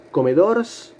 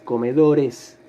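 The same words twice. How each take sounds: First: "comedors" with a bare S after the R; slow, questioning "comedors", no vowel before the S; wrong plural. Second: "comedores" with a full final syllable "res"; correct plural ending. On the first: Teacher playing a pupil asking the profe, wrongly pluralised "comedors". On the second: Teacher corrects the pupil's attempt, "comedores" with full "-es". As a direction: say "comedores" as a statement, E sounded before the S. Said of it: "agrego la partícula es". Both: Shown as a demonstration.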